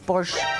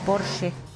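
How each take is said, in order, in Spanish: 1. El nombre se pronuncia de una forma no alemana. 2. El nombre se pronuncia a la manera alemana. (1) "no es Porsche" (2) "la pronunciación correcta en alemán es Porsche"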